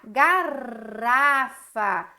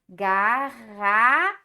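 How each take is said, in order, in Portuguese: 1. O R do meio é uma batidinha leve e suave. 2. O R do meio é um som áspero e arranhado. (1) "quando o R fica entre duas vogais, ele faz sonzinho de R, ia ficar garrafa" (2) "Eu chamo a ajuda de mais um R"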